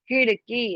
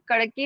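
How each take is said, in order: First: The first consonant is heavy, with aspiration. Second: The first consonant is plain, without aspiration. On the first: The speaker calls it right. "भारी आवाज आएगी तो ख" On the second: The speaker calls it wrong. "कड़की नहीं बोल सकते"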